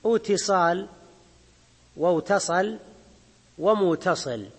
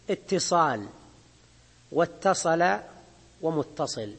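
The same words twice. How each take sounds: First: اتصال، واتصل، ومتصل with w before a single t; original waw form. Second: اتصال، واتصل، ومتصل with a doubled t and no w; assimilated ta. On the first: Teacher shows the origin of the words, unmerged waw in اتصال. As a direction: keep the waw in اتصال: iwtisal, iwtasala, muwtasil. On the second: Teacher gives examples of the changed form, doubled ta in اتصال. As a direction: double the ta in اتصال: ittisal, wattasala, muttasil. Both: Shown as a demonstration. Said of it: "والأصل فيه".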